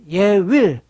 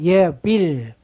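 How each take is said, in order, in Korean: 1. 독일식 발음 없이 말했습니다. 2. 독일식 발음으로 말했습니다. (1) "사실 예윌이 맞아요" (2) "독일어 발음을 한다면 예빌"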